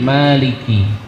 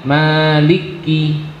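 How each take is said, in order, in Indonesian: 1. Setiap konsonan tunggal, tidak ada yang ditambah. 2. Konsonan itu didobel, ada bunyi tambahan. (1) "tapi maliki" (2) "jangan dibaca maliki"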